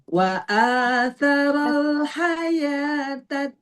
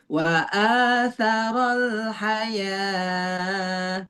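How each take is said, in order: First: The vowel after the y sound is kept short. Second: The vowel after the y sound is drawn out long. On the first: The speaker calls it right. "Nah, segitu" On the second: The speaker calls it wrong. "Nggak boleh yang iya-nya panjangan"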